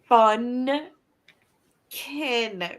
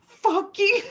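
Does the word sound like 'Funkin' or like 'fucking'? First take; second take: Funkin; fucking. First: It is said carefully as two syllables, 'fun kin'. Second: It is said so it sounds like 'fucking'. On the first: The speaker calls it right. "Like fun kin" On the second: The speaker calls it wrong. "it just straight sounds like he's saying fucking Friday"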